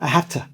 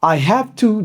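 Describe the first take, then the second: First: The phrase is shortened and blended together. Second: Every syllable of the phrase is said fully.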